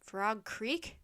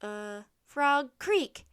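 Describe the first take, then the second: First: Centurion's measured, doubtful repeat; questioning echo. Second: Drawn-out uh, then loud answer; hesitate, then blurt it out. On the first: Centurion echoes answer in doubt. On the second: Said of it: "Jack blurted out". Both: A narrator's reading.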